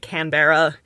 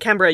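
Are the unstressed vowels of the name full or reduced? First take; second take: full; reduced. First: The unstressed vowels are said as full vowels. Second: The unstressed vowels are reduced to weak vowels. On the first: The speaker calls it wrong. "You don't say Canberra" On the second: The speaker calls it right. "You have to say Canberra"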